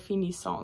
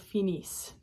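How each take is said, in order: First: The final ending is sounded out aloud. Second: The final ending is silent, not sounded. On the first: The speaker calls it wrong. "You don't say finissons, that is wrong" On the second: The speaker calls it right. "the E N T on the end of that is silent"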